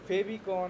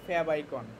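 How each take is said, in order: First: It is said as one blended word, 'febicon'. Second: It is said as two parts, 'fab icon'. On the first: The speaker calls it wrong. "অনেক অনেক কিছু বলে, ওইটা না" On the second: The speaker calls it right. "সুন্দর উচ্চারণ হলো ফ্যাব আইকন"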